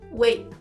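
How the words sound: The final T is cut off abruptly. "no inglês norte-americano... a gente fala interrompendo"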